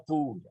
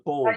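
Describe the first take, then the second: First: The vowel is an 'oo' sound, English style. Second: The vowel is an 'o' sound, German style. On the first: The speaker calls it wrong. "Il n'y a aucune raison de prononcer ça poule en, en anglais" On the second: The speaker calls it right. "je le prononce en allemand"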